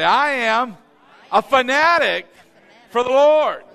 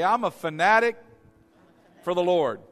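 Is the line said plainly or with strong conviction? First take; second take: strong conviction; plainly. First: It is said forcefully, with strong conviction. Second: It is said plainly, without strong conviction.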